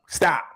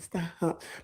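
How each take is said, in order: First: It is said firmly, with conviction. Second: It is said softly, without conviction. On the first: The refusal is serious and final. The speaker calls it right. "say it with the conviction of no" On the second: The refusal could be taken as not meant. The speaker calls it wrong. "not come on, stop, because that can be mistaken"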